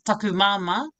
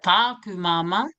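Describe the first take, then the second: First: The first vowel in taku is short. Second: The first vowel in taku is lengthened. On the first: The speaker calls it right. "that's pai" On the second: The speaker calls it wrong. "not as tika, not as correct"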